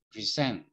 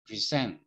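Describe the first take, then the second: First: The stress is on the second syllable. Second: The same.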